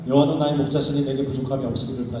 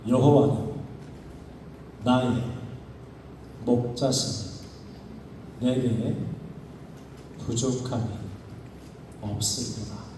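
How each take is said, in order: First: It is read quickly without pauses. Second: It is read slowly with silences between words. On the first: The speaker calls it wrong. "이렇게 읽는 게 아니라" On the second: The speaker calls it right. "단어 하나하나를 맛보듯이 천천히 읽는 거예요"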